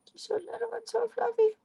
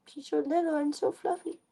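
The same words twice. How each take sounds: First: Put-on much higher cooing baby talk; high squealing baby talk. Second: Cooing to cat. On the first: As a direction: squeal it to the kitten. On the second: Acted.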